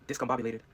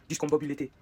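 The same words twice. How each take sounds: First: "discombobulated" said as the English word; low, plain English "discombobulated" amid French; English pronunciation. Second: "Discombobulated" as fake French, ending -lé-té; French vowels on "Discombobulated", last syllable té; Frenchified English word. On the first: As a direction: say "discombobulated" in American English, ending -lay-ted. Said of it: "comme je connais le mot". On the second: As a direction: turn "Discombobulated" into French, dees-kom-bo-bu-lé-té. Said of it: "je connais pas un mot en français". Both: Shown as a demonstration.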